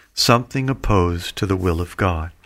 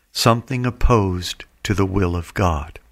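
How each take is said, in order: Both takes have the same delivery.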